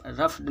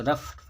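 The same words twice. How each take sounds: First: रफ्ड ending in a voiced D; wrong past ending. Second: रफ्ड ending in a voiceless T; correct past ending. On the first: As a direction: say रफ्ड with D after F. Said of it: "नहीं पढ़ेंगे". (रफ्ड के अंत में ड की आवाज़) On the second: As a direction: say रफ्ड as "ruft". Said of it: "इसको रफ्ड पढ़ेंगे". (रफ्ड के अंत में ट की आवाज़) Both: Shown as a demonstration.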